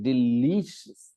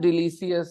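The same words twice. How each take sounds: First: The stress falls clearly on the second syllable. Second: All syllables are said in one even tone. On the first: The speaker calls it right. "the stress is on the second syllable" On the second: The speaker calls it wrong. "It is not delicious, एक बराबर tone में से बोल दिया ऐसा नहीं है"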